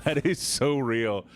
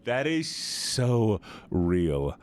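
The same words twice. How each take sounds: First: Slow, heartfelt agreement; emphatic agreement. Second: Very slow, stretched "so" and "real"; drawn-out agreement. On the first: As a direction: agree slowly, pitch gliding down. Agreeing emphatically, first take. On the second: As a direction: linger on each word, stretching "so". Repeats it more drawn out. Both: Real, not acted.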